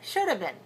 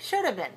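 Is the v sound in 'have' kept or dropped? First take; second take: dropped; dropped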